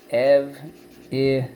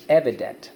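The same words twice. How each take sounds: First: "Ev-i-dent" broken into three drawn-out beats; syllable by syllable. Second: Said in the usual way. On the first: Shown as a demonstration. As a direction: dictate "Ev-i-dent" slowly, one syllable at a time. Teacher sounds out word by syllables.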